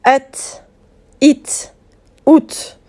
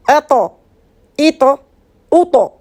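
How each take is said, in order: First: "et, it, out" with a thin, crisp final T; fine light T. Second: "attends, ito, uto" as at', it', ut', thick T with a bounce; heavy rebounded T. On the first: Teacher recalls the finer letter, light "et, it, out". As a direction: end "et, it, out" on a light T without bounce. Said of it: "la lettre T qui est plus fine". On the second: Teacher contrasts with fine T, heavy bounced "attends, ito, uto". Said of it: "Vous voyez la différence avec la, la lettre ta". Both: Shown as a demonstration.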